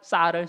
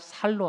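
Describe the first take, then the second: First: The first consonant is a tense s sound. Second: The first consonant is a plain s sound. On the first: "쌍시읒 발음" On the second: "경상도 사람들이 발음이 잘 안 되잖아요"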